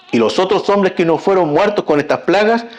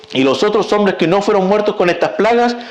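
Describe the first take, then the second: No difference in how they are said.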